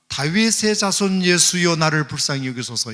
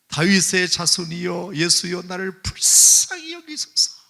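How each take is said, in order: First: It is shouted at a loud level. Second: It is shouted even louder, desperately.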